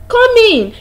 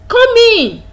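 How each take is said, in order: Both takes have the same delivery.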